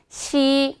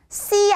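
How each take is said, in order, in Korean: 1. 첫 자음은 평음으로, 부드럽게 발음해요. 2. 첫 자음은 경음으로, 세게 발음해요. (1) "혀끝에 힘 풀고" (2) "씨 아니에요"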